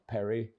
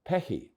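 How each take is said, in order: First: The R is sounded as an English R. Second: The R is sounded as an H. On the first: The speaker calls it wrong. "it's not Perry" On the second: The speaker calls it right. "but Pehi"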